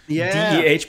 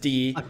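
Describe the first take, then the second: First: The name is said with an 'eh' vowel. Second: The name is said with an 'ee' vowel. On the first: The speaker calls it wrong. "or DEH" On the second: The speaker calls it right. "but in real life, it's Dee"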